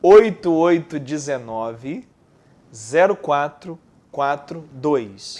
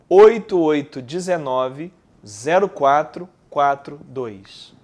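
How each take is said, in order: First: Slow, each digit spaced apart; staccato. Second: Slow, evenly spaced digits; staccato. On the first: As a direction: read the digits one by one, slowly. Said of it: "Pô, pausadamente". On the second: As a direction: dictate each number slowly. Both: Shown as a demonstration.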